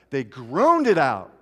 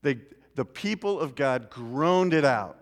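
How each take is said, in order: First: Groaned drawn out slowly, louder; stress on groaned. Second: Said in the usual way. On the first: Shown as a demonstration. Preacher to congregation, slow emphatic groaned. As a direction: lean heavy on the word groaned, slow. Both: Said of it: "just has to be a groan".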